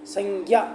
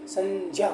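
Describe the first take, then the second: First: The cluster is said with a g sound. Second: The cluster is said with a j sound. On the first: The speaker calls it wrong. "संज्ञा नहीं होता है" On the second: The speaker calls it right. "संज्ञा होता है"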